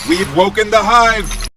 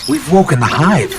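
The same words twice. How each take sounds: First: It is yelled with urgent, dramatic intensity. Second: It is said casually, like a mild inconvenience.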